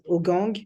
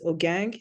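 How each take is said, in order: First: The name is pronounced with French sounds. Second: The name is pronounced with English sounds. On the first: "en français, les gens disent Ogang" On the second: "En anglais, certaines personnes disent Ogang"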